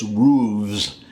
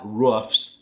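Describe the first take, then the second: First: Roofs as rooves; regional pronunciation. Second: Roofs ending in an F-S; rejected pronunciation. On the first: Telling how it's said back home, roofs as rooves. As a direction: say roofs with a buzzing VZ ending. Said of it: "To me, it's". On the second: Naming what he doesn't say, roofs with FS. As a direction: say roofs with a voiceless fs. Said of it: "it's not roofs". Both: Shown as a demonstration.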